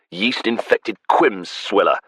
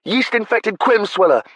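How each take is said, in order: First: Said in the usual way. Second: High, loud, relishing each word; gleeful repeat. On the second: Acted. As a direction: shout it back with delight. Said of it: "delighted relish".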